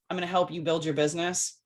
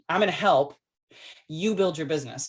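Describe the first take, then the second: First: It is said as one phrase with no pause. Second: There is a pause after "help you". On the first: I will build your business for you. The speaker calls it wrong. "You don't want to say" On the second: I will support you while you build it. The speaker calls it right. "It's where you put the comma"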